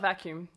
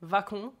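First: Said in the usual way. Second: "vacum" higher and louder, rising on the last syllable; Brazilian-accented "vacum", demonstrated; Brazilian pronunciation. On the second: Shown as a demonstration. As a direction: stress the end of "vacum" as Brazilians do. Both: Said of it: "Not vacuum".

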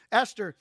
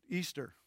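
First: "Esther" said with a short e and a th; corrected name. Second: "Easter" with a long ee in place of Esther; mispronounced name. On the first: Preacher correcting his misreading of Esther's name, corrected name. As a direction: say "Esther" as ES-ter, correcting a slip. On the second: Preacher echoing his slip on Esther's name, mispronounced name. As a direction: say "Easter" low and soft, as EE-ster. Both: Real, not acted.

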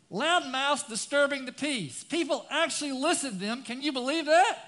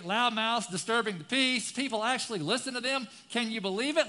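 First: Loud, high, outraged scripture reading; impassioned reading. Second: Said in the usual way. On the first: Shown as a demonstration. Preacher reads the psalm in loud outrage. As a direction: belt it out in disbelief. First reading, full force.

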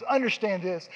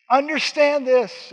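First: Said in the usual way. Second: "Understand this" much louder, higher and slow; emphatic, slow. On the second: Shown as a demonstration. Preacher driving the point home, "Understand this" loud and slow.

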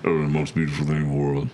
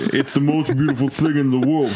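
First: Deep, low Vin Diesel imitation. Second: A hint of a breathy Vin Diesel; lightly voiced tough action star; Vin Diesel impression. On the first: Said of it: "he's got a real deep voice". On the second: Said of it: "I don't think you're reading this like Vin Diesel would say it".

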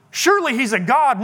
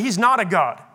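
First: Higher mock conviction; sarcastic. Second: Said in the usual way. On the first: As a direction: pretend to believe it, mockingly. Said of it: "Elijah being sarcastic". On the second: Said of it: "No, actually".

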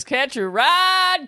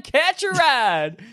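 First: High drawn-out slow call; silly catchphrase voice. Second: Silly catchphrase voice again. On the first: Host shouting a goofy catchphrase to campers. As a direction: stretch it out in a goofy voice. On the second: Host repeating the catchphrase, slightly gentler. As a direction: echo the call in the goofy voice. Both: Acted. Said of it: "this is not my real accent".

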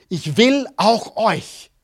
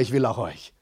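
First: Slow, deliberate and heartfelt; God's message, said slowly. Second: Quiet, mumbled, half-hearted; said without any conviction; unenthusiastic. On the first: Shown as a demonstration. Preacher models the line for the congregation, slowly. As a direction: lay each word down slowly for them to repeat. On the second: Real, not acted. Congregation repeats it back, half-hearted and quiet. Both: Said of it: "Das war nicht sehr begeistert".

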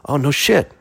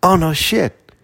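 First: "Oh, no shit" with a rise on "shit", interested; pleasantly surprised. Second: "Oh" hit hard, falling through "no shit", a touch higher; demonstrating the stranger's reaction, falling emphatic; emphatic demo. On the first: Retold or imitated. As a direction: perk up, impressed. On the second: Shown as a demonstration. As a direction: show how he warmed up.

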